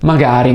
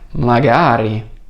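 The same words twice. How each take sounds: First: It is said plainly, as a neutral maybe. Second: It is said as an emphatic, longing exclamation. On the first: It expresses a possibility. "Non hai più il significato di forse iniziale" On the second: It expresses a hope or wish. "Senti come cambia l'intonazione?"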